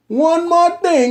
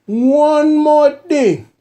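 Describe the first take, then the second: First: Said in the usual way. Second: High, slow, booming tipsy uncle. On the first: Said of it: "in my uncle voice". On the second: Shown as a demonstration. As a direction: stretch it out like a loud uncle. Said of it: "One more thing in my uncle voice".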